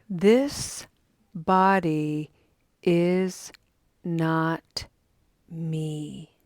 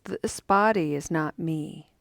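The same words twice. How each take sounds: First: It is read at a slower pace. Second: It is read at a quicker pace.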